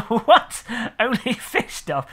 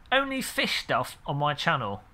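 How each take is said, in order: First: Higher, drawn-out baffled question; laughing disbelief. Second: Said in the usual way. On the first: Real, not acted. Streamer questioning a viewer's odd chat message, amused disbelief. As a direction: repeat it as if you can't believe it.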